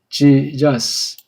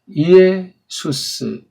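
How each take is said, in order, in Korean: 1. 이 이름은 'j' 소리로 시작합니다. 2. 이 이름은 빠른 'ee-eh' 소리로 시작합니다. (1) "미국 말은 Jesus" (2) "정확한 발음은 이에 이해를 빨랑 한 소리처럼"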